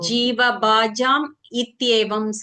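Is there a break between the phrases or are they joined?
break. The phrases are said with a break between them. The speaker calls it wrong. "அந்த மாதிரி இல்லாம"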